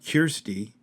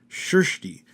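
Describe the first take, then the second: First: The name begins with a hard k sound. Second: The name begins with a sh-like sound. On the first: The speaker calls it wrong. "No, no, not Kirsty" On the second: The speaker calls it right. "it's not sh, but it's like sh"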